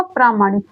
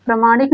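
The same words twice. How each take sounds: First: "प्रामाणिक" with a long first aa, as praa-; long "praa" opening in "प्रामाणिक"; correct long vowel. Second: "प्रामाणिक" with a short first a, as pra-; short "pra" opening in "प्रामाणिक"; wrong short vowel. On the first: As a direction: say "प्रामाणिक" as PRAA-maa-nik. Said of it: "प्रामाणिक होगा". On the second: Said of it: "प्रामाणिक नहीं होगा". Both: Shown as a demonstration.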